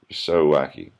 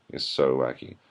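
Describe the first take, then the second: First: Loud sarcastic jab at "so wacky". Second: Said in the usual way. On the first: Real, not acted. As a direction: sneer the line, stressing "so".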